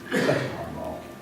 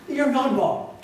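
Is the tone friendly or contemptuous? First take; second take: contemptuous; friendly. First: It sounds contemptuous and demeaning. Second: It sounds friendly and teasing.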